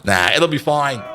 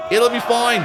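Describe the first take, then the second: First: Said in the usual way. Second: Higher, louder reassurance; cheerful shout. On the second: Real, not acted. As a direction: call it out brightly.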